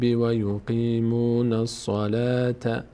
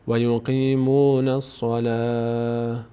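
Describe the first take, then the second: First: The last word ends with a t sound. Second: The last word ends with an h sound. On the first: The reading continues without stopping. "در هنگام حرکت ت خونده میشه" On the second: The reader stops at this word. "ببینید اینو ه تلفظ میشه"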